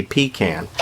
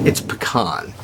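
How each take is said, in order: First: Pecan with a long 'ee' first, then 'can'; pecan as PEE-can. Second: Lower, softer pecan as puh-KAHN. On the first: Quoting what people like to say, pecan as PEE-can. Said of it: "people like to say pecan". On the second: Giving his own preferred pronunciation, pecan as puh-KAHN. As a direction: say pecan with an 'ah' in the last syllable. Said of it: "pronounces it pecan". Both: Shown as a demonstration.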